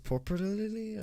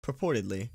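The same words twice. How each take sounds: First: "Purportedly" sounded out high and unsure, as a question; first stab at "Purportedly"; puzzled attempt at purportedly. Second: "Purportedly" said plainly as pur-POR-ted-ly; "Purportedly" said correctly at last; purportedly got right. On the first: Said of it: "see how to pronounce this word". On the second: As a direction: settle on "Purportedly" calmly. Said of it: "how to pronounce this word". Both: Shown as a demonstration.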